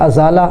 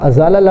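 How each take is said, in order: Both takes have the same delivery.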